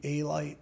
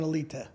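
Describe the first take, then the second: First: The middle vowel sounds like 'eye'. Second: The middle vowel sounds like 'ee'. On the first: This is how others in America said it. The speaker calls it wrong. "in America, they would call me A-Light because the teachers couldn't pronounce it right" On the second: This is how it is said in the home country. The speaker calls it right. "in Albania, it's [name]"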